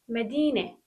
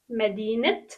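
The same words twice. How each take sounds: First: The word ends in an e vowel sound. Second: The word ends with a t sound. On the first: The word stands alone or before an adjective. "يعني صوت التاء المربوطة إ" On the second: The word is followed by another noun. "بنلفظ التاء مربوطة ت لما يكون في اسم واسم"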